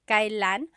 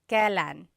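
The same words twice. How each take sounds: First: The word is said in its formal form. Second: The word is said in its casual form. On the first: "it's pronounced kailan ... It's a little bit more formal" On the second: "you will often hear it pronounced kailan"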